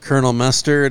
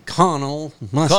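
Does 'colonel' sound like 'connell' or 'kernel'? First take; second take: kernel; connell. First: Colonel is said like 'kernel', with an r sound. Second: Colonel is said like 'connell', without an r sound. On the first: This is the usual modern way to say it. "instead of Kernel Mustard" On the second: This goes back to saying it the original way. "it'd be Connell Mustard"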